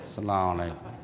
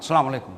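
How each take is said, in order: First: It is said weakly, like a starving person. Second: It is said with too much energy.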